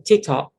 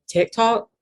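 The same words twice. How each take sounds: First: "TikTok" with a sharp, tense i, like "teek-tock". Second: "TikTok" with a short, lax i, higher and rising; own softer I. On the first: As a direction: imitate the friend's sharp "teek" vowel in "TikTok". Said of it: "really sharp eye there". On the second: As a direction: say "TikTok" with a relaxed "tick" vowel. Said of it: "my eyes change a little bit". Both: Shown as a demonstration.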